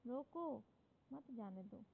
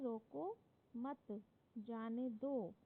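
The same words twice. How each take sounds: First: The pause falls after the word 'roko'. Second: The pause falls after the word 'mat'. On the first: Stop them; do not let them go. "यानी कि रोक लो, और मत जाने दो" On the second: Do not stop them; let them go. "यानी कि इसको मत रोको जाने दो"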